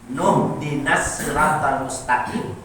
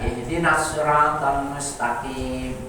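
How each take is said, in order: First: The opening vowel is dropped, linked to the preceding word. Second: The opening 'i' vowel is clearly pronounced. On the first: "hilang alifnya ya" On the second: "itu alifnya kelihatan"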